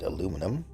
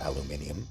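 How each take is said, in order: First: The word is said with four syllables. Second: The word is said with five syllables. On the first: This is the speaker's own usual pronunciation. "I pronounce it aluminum" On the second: This is how some other people say it. "as some people say"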